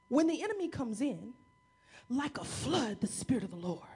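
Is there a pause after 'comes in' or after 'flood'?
after comes in. The pause comes after 'comes in'.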